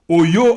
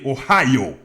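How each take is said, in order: First: It is pronounced the French way. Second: It is pronounced the English way.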